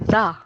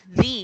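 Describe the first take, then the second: First: It is said in its form used before consonants. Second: It is said in its form used before vowels. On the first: "if the next uh, letter of the word is consonant, we pronounce it as the" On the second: "if the next letter is a vowel, then we pronounce it as the"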